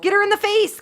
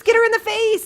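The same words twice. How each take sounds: First: Higher, louder shout "Get her in the face!"; excited cheering. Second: Higher still, louder shout on "her"; cheering louder. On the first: Gamer cheering her character in a fight. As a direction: egg the fight on. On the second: Gamer yelling louder at the fight. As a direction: yell it harder. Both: Real, not acted.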